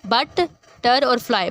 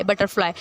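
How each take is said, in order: First: Slow, separate बट, टर, fly; syllable by syllable. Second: Said in the usual way. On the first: Shown as a demonstration. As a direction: give बट, टर and fly a beat each. (बट, टर, fly अलग-अलग, धीरे) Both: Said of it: "देखिए बटर".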